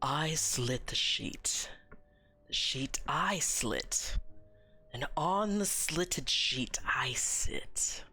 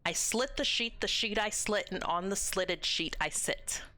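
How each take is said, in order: First: It is said in a deeper voice. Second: It is said in a normal voice.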